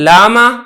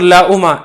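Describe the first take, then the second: First: A long a vowel replaces the glottal stop. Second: A glottal stop with a u vowel is heard.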